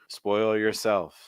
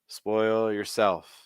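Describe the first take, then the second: The two takes are said the same way.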